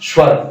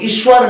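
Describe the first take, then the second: First: The word begins directly with the 's' sound. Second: The word begins with an added 'i' vowel. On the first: The speaker calls it right. "इसको हम बोलते हैं स्वर" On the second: The speaker calls it wrong. "इसको ईश्वर न बोल करके"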